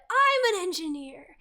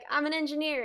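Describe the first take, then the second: First: It is said in an excited tone. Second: It is said in a plain, flat tone.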